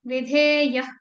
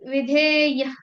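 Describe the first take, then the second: First: The final visarga is cut short, only half sounded. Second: The final visarga is cut short, only half sounded.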